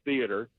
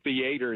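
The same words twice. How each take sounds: First: The word has a standard northern pronunciation. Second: The word has a Southern Texas pronunciation. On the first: This is how people up north say it. The speaker calls it right. "instead of theater" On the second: The speaker was still new to the north. The speaker calls it wrong. "I was still saying theater"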